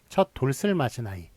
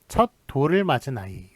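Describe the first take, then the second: First: An s sound links into the next vowel. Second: The l links straight into the next vowel. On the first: The speaker calls it wrong. "시옷이 뒤로 넘어가서 연음이 돼서" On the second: The speaker calls it right. "이렇게 발음을 하죠"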